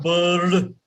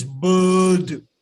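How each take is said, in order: First: BIRD short with an audible R; wrong, R sounded. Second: BIRD as a long "buhd"; English, silent R. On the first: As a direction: put a clear R into BIRD, "burrd". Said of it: "So it is not bird". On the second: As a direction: drop the R and stretch BIRD's vowel. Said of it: "but it is bird". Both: Shown as a demonstration.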